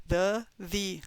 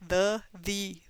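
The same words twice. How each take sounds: The two takes are said the same way.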